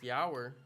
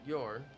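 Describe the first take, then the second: First: The vowel is an 'ow' sound, like power. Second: The vowel is an 'or' sound, like for. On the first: The speaker calls it wrong. "it's not pronounced yower" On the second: The speaker calls it right. "Your is your"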